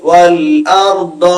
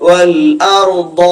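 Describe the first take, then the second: The two takes are said the same way.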